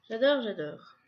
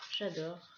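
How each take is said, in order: First: A louder, gushing "j'adore, j'adore"; excited j'adore. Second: Said in the usual way. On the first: Real, not acted. A louder repeat to viewers, gushing over the cute card holder. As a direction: blurt it out in real delight.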